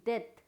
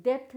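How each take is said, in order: First: डेथ said det, no p; silent B. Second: डेथ said dept, with a p; wrong pronunciation, B sounded. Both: Shown as a demonstration. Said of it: "डेथ नहीं".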